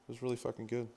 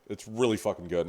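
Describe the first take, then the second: First: It is said in a much higher voice. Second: It is said in his normal voice.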